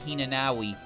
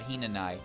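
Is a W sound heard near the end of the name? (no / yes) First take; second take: yes; no. First: A W sound is said before the last syllable. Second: No W sound is said before the last syllable. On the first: The speaker calls it wrong. "You don't call her Hinanawi" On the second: The speaker calls it right. "you call her Hinanai"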